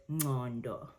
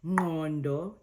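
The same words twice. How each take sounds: First: Ngondo with the Joburg-style Q, drawn out; Joburg Zulu pronunciation. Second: Ngondo with a proper Q click after the N, louder; proper Zulu click. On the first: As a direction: say ngondo the Joburg way, slower, softening the click. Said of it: "it's that Q sound". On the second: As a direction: click inside ngondo, as in nqondo. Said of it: "proper Zulu". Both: Shown as a demonstration.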